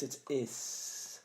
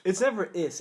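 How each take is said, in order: First: "is" as a long, unvoiced hiss; pronunciation demo. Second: Plain IS with a full vowel and voiced ending; pronunciation demo. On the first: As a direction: stretch "is" into a soft hissing S. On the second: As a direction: say "is" the usual way, stressed. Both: Shown as a demonstration. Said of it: "It's never is, it's is".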